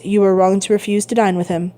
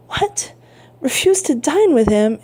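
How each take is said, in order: First: Said in the usual way. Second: Mild shock, lifted on the repeat; taken-aback old father, a touch higher; astonished exclamation. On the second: A narrator's reading. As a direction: query REFUSE TO DINE in disbelief. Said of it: "exclaimed old Dantès".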